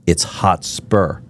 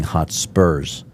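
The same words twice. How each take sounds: First: "Hotspur" said slowly, no final s; correct club name. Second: "Hotspurs" with an added s; mistaken club name. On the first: Explaining the club's name to a listener, slow correction. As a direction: stretch out "Hotspur", ending without an s. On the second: Visitor admitting his mistake, the name with an extra s. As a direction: end "Hotspurs" on a clear s sound. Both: Shown as a demonstration. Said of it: "I was saying Hotspurs".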